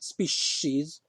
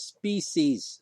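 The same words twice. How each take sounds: First: The middle consonant is an sh sound. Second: The middle consonant is a plain s sound. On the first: The speaker calls it wrong. "not species. There's no sh in there" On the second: The speaker calls it right. "the word is species"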